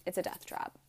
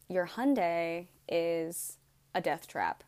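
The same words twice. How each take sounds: First: Whispered echo of the verdict; hushed repeat. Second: Slow, heavy mechanic's verdict; a hint of a doom-laden mechanic; grave news. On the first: Retold or imitated. Mechanic repeating the verdict to her, in a whisper. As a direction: drop to a breathless whisper. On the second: Mechanic breaking bad news to her, slow and grave.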